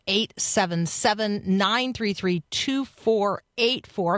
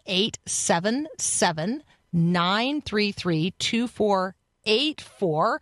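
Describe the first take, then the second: First: The number is said at normal, quicker speed. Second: The number is said more slowly and deliberately.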